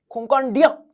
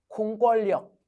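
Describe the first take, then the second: First: The joining consonants are pronounced as n sounds. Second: The joining consonants are pronounced as l sounds. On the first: The speaker calls it right. "니은이 편하죠" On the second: The speaker calls it wrong. "유음화가 적용되면 공권력 이렇게 발음해야 되잖아. 근데 그게 아니래"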